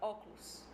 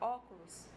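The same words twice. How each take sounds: First: A middle vowel is dropped from the word. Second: Every syllable is fully pronounced.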